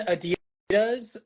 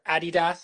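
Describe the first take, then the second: First: Adidas is said the American way. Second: Adidas is said the British way.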